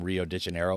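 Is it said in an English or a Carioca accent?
English. It is said in an English accent.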